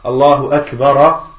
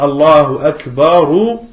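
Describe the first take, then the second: First: Akbar ends with an added a vowel. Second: Akbar ends with an added u vowel. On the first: The speaker calls it wrong. "Et pas" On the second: The speaker calls it right. "il est marfou'. On va dire"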